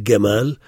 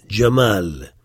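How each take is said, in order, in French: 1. Le mot commence par un son G dur. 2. Le mot commence par un son J.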